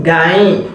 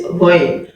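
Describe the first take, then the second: First: "gain" said ga-yin, with open a vowel; wrong Ghayn. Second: "going" said ghoyn, with rounded o-like vowel; correct Ghayn. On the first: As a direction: demonstrate the mistaken "gain". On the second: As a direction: model the Arabic letter "going". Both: Shown as a demonstration. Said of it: "Not gain".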